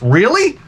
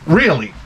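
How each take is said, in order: First: Incredulous. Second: Said in the usual way. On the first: Acted. Outraged at the AI's answer.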